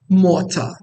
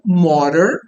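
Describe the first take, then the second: First: The t is crisp and r is silent. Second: The t is a flap and r sounds. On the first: "no inglês britânico" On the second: "no inglês americano"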